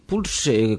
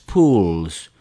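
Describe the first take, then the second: First: It is read with Spanish sounds, like pulsar. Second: It is read with English sounds. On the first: "como que de pulsar" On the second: "en inglés es Pulse"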